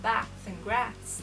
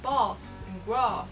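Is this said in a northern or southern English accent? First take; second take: northern; southern. First: It is said in a northern English accent. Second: It is said in a southern English accent. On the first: "like they say up in the north" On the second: "I'm from the south, so I say things like"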